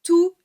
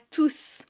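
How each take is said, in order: First: The final S sound is silent. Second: The final S sound is pronounced. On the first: It is an adjective before a noun. "Je ne prononce pas le S à la fin de tous" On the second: It is a pronoun standing alone. "on va prononcer le S à la fin"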